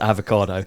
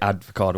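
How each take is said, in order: First: No 'd' sound comes before the 'v'. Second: A 'd' sound comes before the 'v'. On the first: The speaker calls it right. "I know it's avocado" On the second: The speaker calls it wrong. "I constantly say words a bit wrong"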